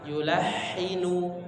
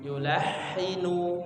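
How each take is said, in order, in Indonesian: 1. Bunyi h-nya bersih dan halus. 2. Bunyi h-nya bersih dan halus.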